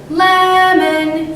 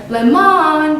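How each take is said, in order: First: The first syllable is held longer and stressed. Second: The second syllable is held longer and stressed. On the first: The speaker calls it right. "You'd say" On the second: The speaker calls it wrong. "You wouldn't say, ... That'd be weird"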